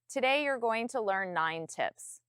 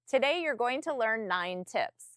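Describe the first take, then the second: First: It is said flatly, without a smile. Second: It is said smiling, with a raised, friendly tone. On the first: The speaker calls it wrong. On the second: The speaker calls it right.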